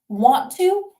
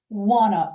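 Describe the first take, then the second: First: Both words are said fully and separately. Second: The words blend into one reduced word. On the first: "Want to can become wanna" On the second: "wanna in informal spoken English"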